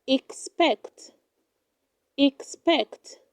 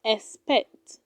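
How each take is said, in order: First: Expect said as "ik-SPECT"; correct pronunciation. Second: Expect said as "es-pect"; wrong pronunciation. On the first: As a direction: sound the x of expect as ks. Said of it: "It is pronounced". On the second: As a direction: drop the k sound of the x in expect. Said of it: "Do not say expect". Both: Shown as a demonstration.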